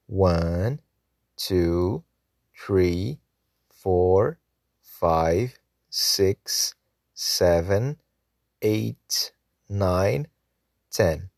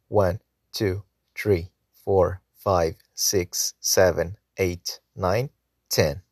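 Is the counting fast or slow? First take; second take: slow; fast. First: The numbers are counted at a slower pace. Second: The numbers are counted at a faster pace.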